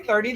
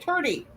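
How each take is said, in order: First: It is said without an Irish accent. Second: It is said with an Irish accent. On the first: "they don't say thirty" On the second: "they say thirty"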